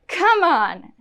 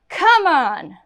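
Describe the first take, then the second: No difference in how they are said.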